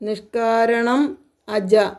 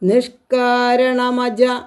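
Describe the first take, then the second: First: The words are said as two separate parts. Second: The words run together into one sound.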